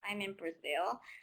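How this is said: It is said in an upset, unhappy tone. The speaker is unhappy to be there. "if I'm very upset, then the same statement could be like"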